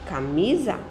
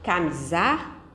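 First: The stress falls on the middle syllable. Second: The stress falls outside the middle syllable. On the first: The speaker calls it right. "Ok. ... mi é a sílaba mais forte" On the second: The speaker calls it wrong. "Não"

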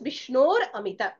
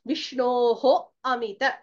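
First: The first word ends with an 'r' sound. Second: The first word ends with a separate 'ho' syllable. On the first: The words are joined together. "becomes Vishnor Amita. So Repha has to be enunciated" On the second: The words stand apart. "Vishnoho Amita becomes"

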